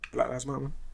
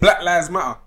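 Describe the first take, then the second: First: It is said casually, without force. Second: It is said loudly and forcefully.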